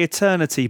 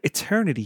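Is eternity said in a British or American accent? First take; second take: British; American. First: Eternity is said in a British accent. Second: Eternity is said in an American accent. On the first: This is how the speakers themselves say it. "we'd say eternity" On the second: This is how the advert said it. "but eternity sounds so much cooler"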